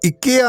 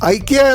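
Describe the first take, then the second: First: The name is said the Swedish way. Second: The name is said the Indian way. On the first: This is how people in Sweden say it. "സ്വീഡനിലെ ഉച്ചാരണം ഇക്കിയ എന്നാണ്" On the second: This is how people in India say it. "ഐക്കിയ എന്നാണ് ഈ കോഫി ഷോപ്പിനെ ഇന്ത്യക്കാർ വിളിക്കുന്നത്"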